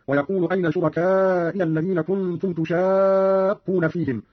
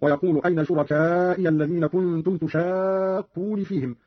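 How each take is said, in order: First: Said in the usual way. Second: تشاقون said "tushaaaqquni"; Qalun's تشاقون with -ni ending; kasra on nun. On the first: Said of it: "قرأ قالون بكسر النون". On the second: Shown as a demonstration. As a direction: end تشاقون in an i vowel, long vowel held. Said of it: "بكسر النون من تشاقون هكذا".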